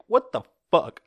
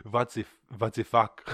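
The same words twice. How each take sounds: First: High, loud comic outburst; mock outraged Belgium. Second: Hammed-up Flemish accent. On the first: Belgium reacting to vaccines leaving, mock outrage. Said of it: "Belgium's like". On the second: Host retrying Belgium's reaction, mock Flemish accent. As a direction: attempt a Flemish accent, w turned to v. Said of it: "a Flemish accent".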